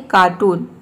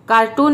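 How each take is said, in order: First: कार्टून as 'kaa-toon', r silent. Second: कार्टून with a sounded r, the wrong way; wrong pronunciation. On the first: Teacher modelling कार्टून, r silent. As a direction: say कार्टून without the r. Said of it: "आर इसमें silent है". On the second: Teacher showing students the wrong कार्टून, r sounded. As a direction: say कार्टून with a full r. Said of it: "कार्टून नहीं". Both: Shown as a demonstration.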